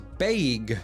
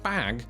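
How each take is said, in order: First: The vowel is an 'ay' sound, like 'baig'. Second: The vowel is a plain short 'a' sound.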